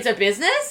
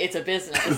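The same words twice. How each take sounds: First: The voice rises at the end. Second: The voice falls at the end. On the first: The title is said as a question. The speaker calls it right. "Question mark?" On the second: It is said as a plain statement. The speaker calls it wrong. "you mispronounced it"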